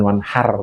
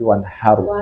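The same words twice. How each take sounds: First: The final r is plain, without lip rounding. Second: The final r is rounded, like ru or ro. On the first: The speaker calls it wrong. "bukan wanhar" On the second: The speaker calls it right. "tapi wanhar ... kayak mau mengucapkan ru atau ro"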